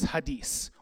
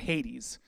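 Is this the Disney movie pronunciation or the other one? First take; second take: other; Disney. First: The name is said differently from the Disney movie. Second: The name is said as in the Disney movie. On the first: "this one is Hades" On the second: "or Hades, if you like the Disney Hercules movie"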